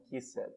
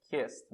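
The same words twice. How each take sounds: First: "kissed" as two syllables, kiss-ED; wrong extra syllable. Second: "kissed" as one syllable, kist; correct -ed ending. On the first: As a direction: sound out a separate "ed" in "kissed". ("kissed" errado, em duas sílabas) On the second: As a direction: end "kissed" on a crisp ST. ("kissed" numa sílaba, com som de T) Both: Shown as a demonstration. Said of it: "não kissed".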